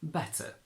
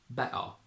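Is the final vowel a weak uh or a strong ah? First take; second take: weak uh; strong ah. First: The final vowel is a weak, short uh. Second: The final vowel is a deep, strong ah.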